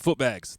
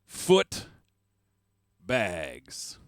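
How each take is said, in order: First: It is said as one joined word. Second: It is said as two separate words.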